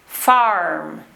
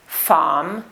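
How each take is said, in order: First: Farm as "farrm", R curled and held; West Country rhotic R. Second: Farm as "fahm", the R silent; received pronunciation. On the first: Teacher contrasting accents for learners, West Country rhotic R. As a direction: lean on the R in farm. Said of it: "but in the West Country accent, we do, the rhotic R". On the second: Teacher contrasting accents for learners, received pronunciation. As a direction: drop the R from farm, RP style. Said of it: "In received pronunciation, we do not pronounce the letter R". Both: Shown as a demonstration.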